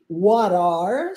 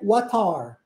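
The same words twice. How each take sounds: First: The t is a quick flap, like an r. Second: The t is a clear t sound. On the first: This is the American way. "a gente transforma esse T em R" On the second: This is the British way. "o T permanece com o som de T"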